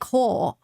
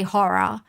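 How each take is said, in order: First: The word is squeezed into a single syllable. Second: The word is said with two clear syllables. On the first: The speaker calls it wrong. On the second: The speaker calls it right. "at least we can say horror"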